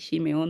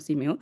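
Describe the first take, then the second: First: The name starts with an sh sound. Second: The name starts with an s sound. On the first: The speaker calls it right. "Realmente debemos decir Shimeón" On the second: The speaker calls it wrong. "no Simeón"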